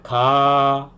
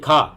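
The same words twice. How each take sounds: First: The vowel is drawn out and long. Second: The vowel is short and clipped. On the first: The speaker calls it right. "इसको थोड़ा लंबा करके बोलना है" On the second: The speaker calls it wrong. "जैसे उर्दू में ये खा, खा नहीं बोलना"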